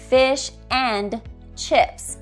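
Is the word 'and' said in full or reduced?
full. The word 'and' is full and stressed.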